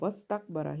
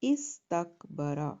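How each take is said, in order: First: The opening 'i' is dropped, linked to 'wa'. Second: The word starts with a pronounced 'i' sound. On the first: "उस टाइम पर आप वस्तकबरा ही पढ़ेंगे" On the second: "तो कैसे पढ़ेंगे?"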